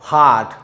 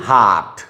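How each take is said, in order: Both takes have the same delivery.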